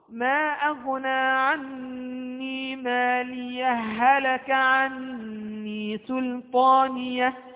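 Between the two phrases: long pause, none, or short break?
none. The phrases run together with no break between. The two verses are joined into one continuous recitation. "الوصف"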